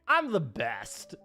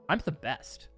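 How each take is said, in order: First: It sounds playful and jokingly exaggerated. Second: It sounds seriously arrogant and confrontational.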